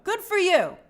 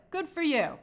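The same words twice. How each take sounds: First: Louder, higher cheer; upbeat praise for the hard worker. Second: Said in the usual way. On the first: Real, not acted. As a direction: cheer them on brightly. Praising viewer's extra work.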